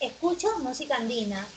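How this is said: The pitch falls at the end. It is a statement. "tono descendente"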